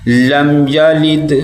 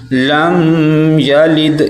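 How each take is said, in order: First: لم یلد with a short m, evenly chanted; correct reading. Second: لم یلد with the m of لم held too long; wrong reading. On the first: Teacher giving the right way, لم یلد without dragging the m. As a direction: close لم promptly, then slow یلد with bounced d. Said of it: "اس کو ہم نے پڑھنا ہے". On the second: Teacher showing a common mistake, لم dragged out on the m. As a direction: hum on the end of لم before یلد. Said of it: "یہ بھی غلط ہے". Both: Shown as a demonstration.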